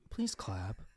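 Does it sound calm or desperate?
desperate. It is said with more desperation.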